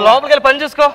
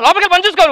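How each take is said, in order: First: The command sounds gentle and loving. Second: The command sounds harsh and curt.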